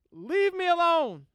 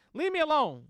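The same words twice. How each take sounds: First: Put-on loud, high childish whine; a kid yelling leave me alone; whiny kid. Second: Put-on childish plea. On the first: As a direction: whine it like a sulky Baltimore kid. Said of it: "don't he sound like a little kid". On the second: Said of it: "this is my version".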